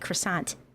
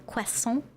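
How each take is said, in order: First: It is pronounced with an American-style accent. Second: It is pronounced with a French-style accent. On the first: It is the expected everyday way for Americans. "As an American, I'm supposed to say croissant" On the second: It sounds cuter but may seem pretentious. "when I say it all Frenchly"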